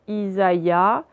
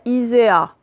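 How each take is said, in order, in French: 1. Le a et le i sont deux voyelles séparées. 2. Le a et le i se fondent en une seule voyelle.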